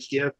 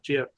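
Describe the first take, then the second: First: It begins with a hard G sound. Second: It begins with a soft J sound. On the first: The speaker calls it right. "you say GIF ... because that is the correct way of saying it" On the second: The speaker calls it wrong. "and not GIF"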